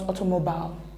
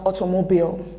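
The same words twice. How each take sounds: First: The final vowel is a short sound. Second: The final vowel is a long E sound. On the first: The speaker calls it wrong. "not automobile" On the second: The speaker calls it right. "it's pronounced automobile, ... the long E sound ... It's not the short one"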